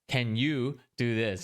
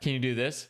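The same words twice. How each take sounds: First: It is said with pointed, snarky emphasis. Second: It is said in a relaxed, friendly tone. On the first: The request sounds rude and impatient. "I'm emphasizing in my head" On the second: It is a simple, friendly request. "they read it in a different tone"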